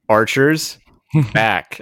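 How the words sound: The command is over-enunciated in a passive-aggressive tone. The speaker is annoyed that the command was not obeyed.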